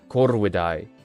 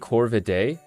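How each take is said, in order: First: The R is rolled and V sounds like W. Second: The R is not rolled and V sounds like V. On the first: "the V turns into a W and you have to roll the R" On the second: "But you can say Corvidae"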